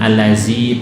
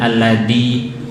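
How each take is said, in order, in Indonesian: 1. Konsonan tengahnya bunyi z biasa. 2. Konsonan tengahnya bunyi th yang lembut. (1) "bukan allazi"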